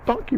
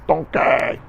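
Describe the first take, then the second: First: Said in the usual way. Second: "donkey" said as "don-KAY", drawn out; jokey "donkey" with a big open ending; playful pronunciation. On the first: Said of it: "or as I say". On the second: Shown as a demonstration. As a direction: stretch the last syllable of "donkey" into a long "kay". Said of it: "or as I say, donkey".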